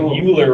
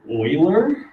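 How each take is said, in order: First: The name begins with a 'you' sound. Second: The name begins with an 'oy' sound. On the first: The speaker calls it wrong. "that's a U, so kind of looks like Euler" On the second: The speaker calls it right. "It's actually pronounced like Euler"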